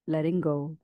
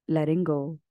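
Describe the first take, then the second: No difference in how they are said.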